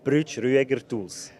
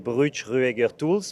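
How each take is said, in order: First: The name is said the German way. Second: The name is said the French way.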